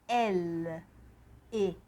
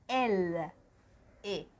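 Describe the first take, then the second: The two takes are said the same way.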